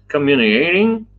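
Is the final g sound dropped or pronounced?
dropped. The word ends without the g sound. "Texas style of uh, communicating without the G"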